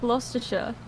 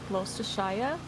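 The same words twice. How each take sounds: First: It is said with a local English pronunciation. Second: It is said with an American-style pronunciation. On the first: The speaker calls it right. "Yeah, I am" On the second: The speaker calls it wrong. "Americans usually say like"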